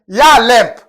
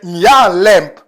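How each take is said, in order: First: It is said without the nasal sound. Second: It is said with the nasal sound. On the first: The speaker calls it wrong. "mais c'est pas ça" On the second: The speaker calls it right.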